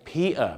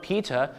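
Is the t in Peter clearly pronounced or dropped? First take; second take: dropped; pronounced. First: The middle t is dropped, sounding like Pia. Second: The t in the middle is clearly pronounced. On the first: "กลายเป็นPeter" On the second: "ดูสิครับว่า"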